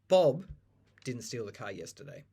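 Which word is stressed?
Bob. The stress falls on the word Bob. Someone else did it. "Some other guy did"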